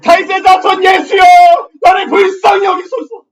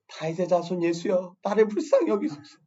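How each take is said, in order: First: It is shouted very loudly. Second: It is said quietly, at normal volume.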